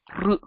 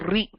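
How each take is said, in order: First: It is a bare r sound with unmoving lips. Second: It is said with an added i vowel, like ri. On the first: The speaker calls it right. "don't move your lips and only move your tongue and you say r" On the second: The speaker calls it wrong. "It's also not ri"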